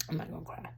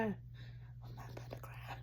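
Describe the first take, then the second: First: Soft, fragile, near tears; quiet, near tears. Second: Slow tearful whisper; whispered, holding back tears. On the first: Vlogger telling herself not to cry, quiet. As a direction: say it softly, willing the tears back. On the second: Vlogger fighting tears on camera, whispered. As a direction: whisper it to steady yourself. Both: Real, not acted.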